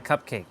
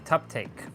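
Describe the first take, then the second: First: The word is pronounced in the ordinary way. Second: The word is pronounced in a distorted way.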